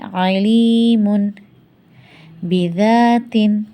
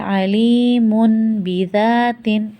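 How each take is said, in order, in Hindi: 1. अंतिम n n ही रहता है, शब्द अलग रहते हैं। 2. अंतिम n m बन जाता है, शब्द जुड़कर बोले जाते हैं। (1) "अगर अकेले पढ़ें इसे तो कैसे पढ़ेंगे?" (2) "अगर अब मिला के पढ़ें तो कैसे पढ़ेंगे?"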